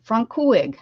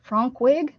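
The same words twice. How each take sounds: First: Frankwig said firmly, FRANK-wig, falling; own pronunciation. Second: Frankwig with a questioning rise, FRANK-wig; own mispronunciation. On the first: Streamer settles on Frankwig as her version. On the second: Streamer guesses a tricky name as Frankwig. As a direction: try out Frankwig tentatively. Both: Real, not acted. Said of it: "That's how I would say it".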